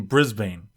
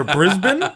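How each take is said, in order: First: Brisbane ending like "bane"; spelling pronunciation. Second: Brisbane as BRIZ-bun, questioning; reduced pronunciation. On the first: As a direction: say Brisbane as BRIZ-bayn, long a. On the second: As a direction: say Brisbane with a weak "bun" ending. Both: Shown as a demonstration. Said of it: "Or Brisbane?".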